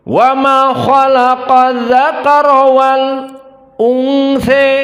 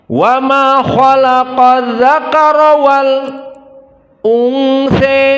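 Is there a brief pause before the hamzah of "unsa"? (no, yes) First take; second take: yes; yes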